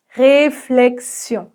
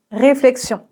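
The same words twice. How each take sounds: First: Réflexion very slowly, R sounded; pronounced R, syllable by syllable. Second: Said in the usual way. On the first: Shown as a demonstration. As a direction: break réflexion into drawn-out syllables. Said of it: "Le R au début du mot est toujours un peu plus prononcé". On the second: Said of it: "Le R au début du mot".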